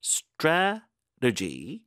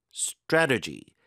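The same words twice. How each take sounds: First: "Strategy" very slow, broken as STRA... tegy, rising; high, syllable-by-syllable "Strategy"; careful pronunciation. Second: "strategy" slow but joined, falling at the end; deliberate "strategy", first syllable leading; careful pronunciation. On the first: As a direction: stretch STRA, pause, then lift "tegy". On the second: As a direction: say "strategy" as one whole word, STRA stressed. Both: Shown as a demonstration. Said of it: "strategy 발음이 참 어려워요".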